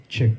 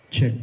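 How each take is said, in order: No difference in how they are said.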